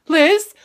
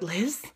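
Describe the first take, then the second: First: Higher, louder call for a missing friend; horror-spoof worried shout; mock alarmed call. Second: Soft, tentative call for a missing friend; horror-spoof quiet call; hushed mock calling. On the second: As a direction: call out quietly, acting uneasy. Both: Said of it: "and I went".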